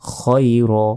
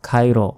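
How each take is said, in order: First: The first vowel is a rounded o-like sound. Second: The first vowel is an open aa. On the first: The speaker calls it right. "খায়রা নয়, খয়র" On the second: The speaker calls it wrong. "অনেকে বলি খায়র"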